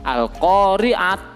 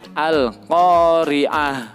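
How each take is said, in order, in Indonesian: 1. Kata ini berakhir dengan bunyi t. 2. Kata ini berakhir dengan bunyi h. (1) "Jangan dibaca al-qari'at" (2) "tapi diganti menjadi hak"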